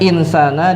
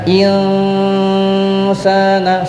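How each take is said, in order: First: The n is pronounced clearly. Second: The n is hidden and nasalized. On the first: This is how it is written. "Tulisannya insana" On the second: This is how it is read aloud. "dibaca insana, samar"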